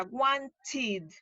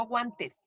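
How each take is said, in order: First: "wanted" said slowly, ending in a clear "-id"; correct pronunciation. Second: "wanted" said Spanish-style, ending "-te" with no final d; wrong pronunciation. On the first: Teacher shows students the right "wanted", slowly. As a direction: give "wanted" a full extra "-id" syllable. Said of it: "esto se pronuncia wanted". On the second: Teacher shows the students' wrong "wanted". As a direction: drop the d of "wanted" and end on an open "-te". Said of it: "no wanted". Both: Shown as a demonstration.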